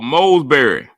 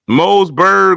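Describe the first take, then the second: First: The name ends with an ee sound. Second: The name ends with a g sound. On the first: "How we turned that T H into a R Y" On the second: "there was no G anywhere to be found"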